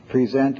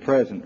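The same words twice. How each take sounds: First: "present" as pre-ZENT, stress on the second syllable; verb pronunciation. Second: "present" as PREZ-ent, stress on the first syllable; noun pronunciation. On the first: Lecturer giving another homograph case, "present" as pre-ZENT. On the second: Lecturer giving another homograph case, "present" as PREZ-ent. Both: Shown as a demonstration. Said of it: "same thing for one other case".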